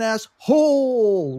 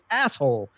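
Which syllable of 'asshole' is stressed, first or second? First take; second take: second; first. First: The stress is on the second syllable. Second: The stress is on the first syllable. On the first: "with the emphasis on hole" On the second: "It's always asshole"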